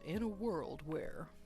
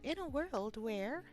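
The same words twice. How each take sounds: First: It is said in a deep announcer voice. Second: It is said in a high, light voice. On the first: "read like a movie announcer guy" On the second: "I suppose I could have gone higher"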